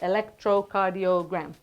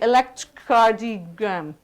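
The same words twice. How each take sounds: First: The word is said with its linking vowels. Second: The word is said without its linking vowels. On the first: The speaker calls it right. "So we say electrocardiogram" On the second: The speaker calls it wrong. "you can't say electrocardiogram. It doesn't sound nice"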